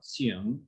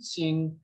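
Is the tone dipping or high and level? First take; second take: dipping; high level. First: The pitch dips low and then rises. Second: The pitch stays high and level. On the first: The speaker calls it right. "is third tone" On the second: The speaker calls it wrong. "I had Xing mistaken for a first tone"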